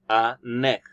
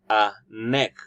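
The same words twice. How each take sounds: First: The n sound joins onto the next word. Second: The same.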